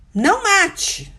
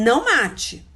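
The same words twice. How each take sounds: First: Slow, high, loud "Não mate", each word weighed; solemn, drawn-out "Não mate"; stressed commandment. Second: Said in the usual way. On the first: Acted. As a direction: lay down "Não mate" as a firm law.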